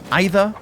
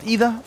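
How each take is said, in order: First: The name is said the English way. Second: The name is said the Portuguese way. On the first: The speaker calls it wrong. "and not Ida. Although Ida would be the English pronunciation" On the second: The speaker calls it right. "it's pronounced Ida"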